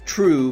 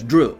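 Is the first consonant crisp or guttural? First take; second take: crisp; guttural. First: The first consonant is crisp and light. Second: The first consonant is guttural and less crisp.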